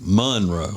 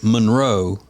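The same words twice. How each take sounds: First: The stress is on the first syllable. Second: The stress is on the second syllable. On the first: This is how locals say it. The speaker calls it right. "but in Louisiana it's Monroe" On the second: This is how most people say it. The speaker calls it wrong. "most people would say Monroe. ... put the accent on the row"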